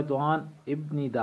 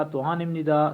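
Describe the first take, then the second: First: "توہان ابن ندا" with a p/b stop before n; as written. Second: "توہان ام ندا" with m before the n; as pronounced. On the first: Teacher reading what is written, "توہان ابن ندا" with the stop sounded. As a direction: read "ابن ندا" by its letters, ip-ni-da. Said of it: "یہ لکھا ہوا ہے". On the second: Teacher showing how it is read, "توہان ام ندا" with nasal m. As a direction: say "ام ندا" as im-ni-da, stop turned to m. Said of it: "یہ پڑھا جائے گا". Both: Shown as a demonstration.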